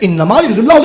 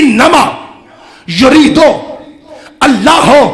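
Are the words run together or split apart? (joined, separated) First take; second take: joined; separated. First: The words are run together into one phrase. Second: The words are split apart one by one. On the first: "जिसे आप कहते हैं" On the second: "उसे मैं अलग अलग कर रहा हूं"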